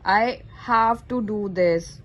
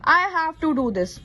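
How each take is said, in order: First: It is said in a heavy, obliged tone. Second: It is said in a plain, neutral tone. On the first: The speaker is forced to do it. "जब हम ऐसी tone में बोलते हैं तो हमें करना पड़ता है" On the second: The speaker simply intends to do it. "मुझे ये करना है"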